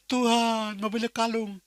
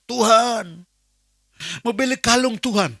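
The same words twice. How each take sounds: First: Softer pleading prayer. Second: Higher, earnest begging prayer; pleading prayer. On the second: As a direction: plead with God like a child asking for a gift. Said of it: "Saya mulai". (doa memelas dengan suara lebih tinggi) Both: Retold or imitated.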